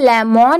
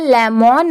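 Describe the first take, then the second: First: The second syllable has a full 'mon' vowel. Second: The second syllable has a full 'mon' vowel.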